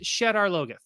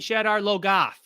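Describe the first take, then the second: First: The name is said in a plain, neutral way. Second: The name is said with an exaggerated put-on twang. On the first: This is the pronunciation from the original audiobooks. The speaker calls it right. "it's pronounced Shadar Logoth. That's how they say it" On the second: This is the newer adaptation's pronunciation. The speaker calls it wrong. "sounds like the way that someone from Michigan would go down to Kentucky and then like try to use a Kentucky accent"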